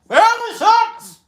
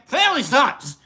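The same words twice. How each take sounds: First: It is said noticeably louder. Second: It is said at normal volume.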